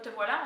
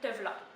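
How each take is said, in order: First: Voilà is said in full with both syllables. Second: Voilà is shortened to a single syllable. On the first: The speaker calls it wrong. "On ne dira pas te voilà" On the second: The speaker calls it right. "on va dire te v'là"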